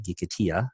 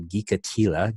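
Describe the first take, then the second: First: Gikatia with a Spanish y sound for the l; Spanish-style Gikatia, no l sound; Spanish pronunciation. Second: Said in the usual way. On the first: Shown as a demonstration. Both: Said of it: "his Spanish accent there".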